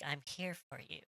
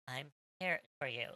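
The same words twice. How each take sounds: First: It is said in a seductive way. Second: It is said in a stilted way.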